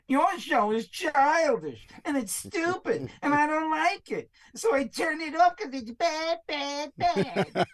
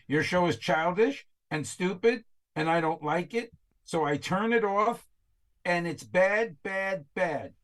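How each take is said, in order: First: It is read in a whiny, childish voice. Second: It is read in a plain voice.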